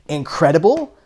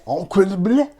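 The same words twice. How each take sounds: First: It is said in a plain English accent. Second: It is said in a put-on French accent.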